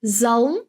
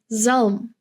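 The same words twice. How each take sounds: First: "zalm" with a clear L before the M, tone rising; the wrong "zalm", L too audible; sounded L. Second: "zalm" with the L barely sounded; "zalm" said with a swallowed L; near-silent L. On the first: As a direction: pronounce the L in "zalm" fully. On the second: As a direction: glide from the vowel into M in "zalm". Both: Shown as a demonstration. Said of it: "the L is pretty silent".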